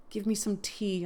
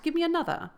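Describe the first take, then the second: First: Said in the usual way. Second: High, whiny demand; petulant demand. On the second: Shown as a demonstration. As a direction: demand it like a spoiled child.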